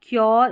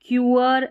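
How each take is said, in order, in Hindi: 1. यह शब्द एक ही अक्षर है, 'kyor', एक सरकती आवाज़ में। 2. यह शब्द दो अक्षरों में बँटता है, 'kyoo-er'। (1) "इस तरीके से प्रोनाउंस करते हैं तो सही" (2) "ऐसे पढ़ेंगे तो सही उच्चारण नहीं होगा"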